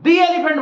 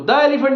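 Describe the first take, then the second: First: The word 'the' is said with a long 'ee'. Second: The word 'the' is said with a short 'uh'. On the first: The speaker calls it right. "दी elephant बोलोगे उसको" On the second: The speaker calls it wrong. "द elephant नहीं बोलोगे"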